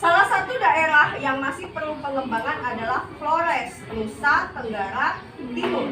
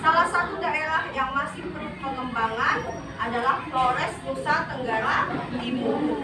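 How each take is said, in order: Both takes have the same delivery.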